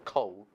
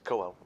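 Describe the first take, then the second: First: It sounds just like the word coal. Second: It sounds different from the word coal. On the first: The speaker calls it wrong. "It's not coal, as in fire and coal" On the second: The speaker calls it right. "It's Coel"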